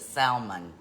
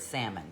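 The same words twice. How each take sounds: First: The word is said in an imitated mispronunciation. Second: The word is said in the usual pronunciation. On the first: This is how someone else says it. The speaker calls it wrong. "she pronounces it salmon" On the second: This is how the word should be said. The speaker calls it right. "She cannot say the word salmon"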